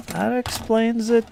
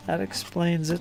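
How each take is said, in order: First: High, slow, drawn-out remark; higher, slower. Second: Said in the usual way. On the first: Pretend. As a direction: stretch it out in a high put-on voice. Joke about two heads.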